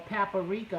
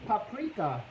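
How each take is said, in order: First: It is said with a Southern pronunciation. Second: It is said without a Southern pronunciation.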